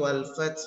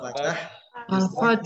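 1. Huruf t terakhir tidak diikuti vokal. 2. Vokal pendek ditambahkan setelah huruf t terakhir. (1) "Hanya tidak menambah harokat fathah pada huruf ta" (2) "wal fath menambah harokat huruf tanya"

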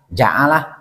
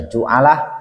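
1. Suku kata pertama memiliki vokal a. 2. Suku kata pertama memiliki vokal u.

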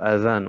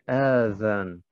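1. Der erste Vokal bleibt kurz. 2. Der erste Vokal wird lang gezogen. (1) "ohne Verlängerung" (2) "Einige sagen أذان. Das ist falsch"

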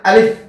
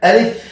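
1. দুই ঠোঁট একসাথে চেপে ধরে এই ধ্বনি তৈরি হয়। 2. উপরের দাঁত নিচের ঠোঁটে ছুঁইয়ে এই ধ্বনি তৈরি হয়। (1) "এরকম দুই টুট মিলে যায়, দুই টুট মিলে সঠিক উচ্চারণ হবে না" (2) "উপরে দুই দাঁত নিচে টুটের সাথে লাগবে"

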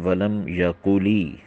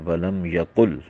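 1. आखिरी शब्द लंबी 'ee' स्वर ध्वनि पर खत्म होता है। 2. आखिरी शब्द एक बिना स्वर वाले व्यंजन पर खत्म होता है। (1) "खड़ी ज़ेर या कहिए कि या की आवाज़ पैदा की गई" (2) "आखिर में जज्म होना चाहिए"

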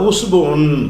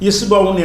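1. இந்த சொல் 'u' உயிரெழுத்தில் தொடங்குகிறது. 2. இந்த சொல் 'i' உயிரெழுத்தில் தொடங்குகிறது. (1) "கொஞ்சம் இலக்கியமாக கரெக்டாக சொல்கிறவங்க உஸ்பவுன்னு சொல்லுவாங்க" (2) "கொஞ்சம் சாதாரண பேச்சு வழக்கில் இஸ்பவுன் என்று சொல்லுவார்கள்"

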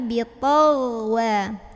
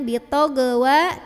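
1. Konsonan tengah mengalir halus tanpa memantul. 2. Konsonan tengah dilepaskan dengan memantul. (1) "tapi bitolwa" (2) "Ghain sukun jangan mantul. Jangan bitogwa"

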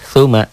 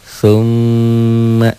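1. M-nya tunggal, pendek, dan tidak ditahan. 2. M-nya bertasjid, ditahan lama dan berdengung. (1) "Enggak ada yang panjang. Enggak ada yang ditahan. Enggak ada yang didobel" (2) "ditahan, dobel dan dengung"

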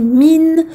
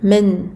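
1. La voyelle sonne comme un 'i' pur et plein. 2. La voyelle sonne comme un 'e' ouvert. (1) "un i pur et complet" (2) "il ne faut pas que ça ressemble à men"

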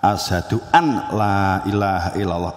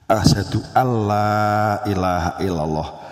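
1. Huruf n pada 'an' dilafalkan terpisah. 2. Huruf n menyatu dengan l setelahnya. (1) "ada an loh Bapak Ibu ya" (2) "Kemudian dibaca apa itu? Ihram biluguna"

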